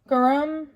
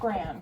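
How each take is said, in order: First: The word is said with two full syllables. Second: The word is squeezed into one syllable. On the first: The speaker calls it right. "It's garam masala powder" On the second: The speaker calls it wrong. "It's not gram"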